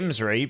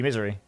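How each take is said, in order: First: It is said as 'im-sree', starting with 'im'. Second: It is said as the ordinary word 'misery'. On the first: The name is read letter by letter as written. "I say Imsry because it's I I Msry" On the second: The name is said the way its owner wants. "if you want me to say misery, then fair enough, I'll call you misery"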